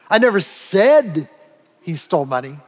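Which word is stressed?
said. The stress is on "said".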